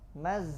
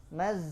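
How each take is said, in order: First: The final consonant buzzes like a z. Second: The final consonant buzzes like a z.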